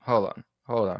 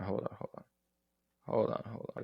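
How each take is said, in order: First: Said in the usual way. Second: Half-whispered hold on, hold on while looking something up; muttered under breath. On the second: Real, not acted. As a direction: mutter it to yourself, barely voiced. Mutters while searching the game.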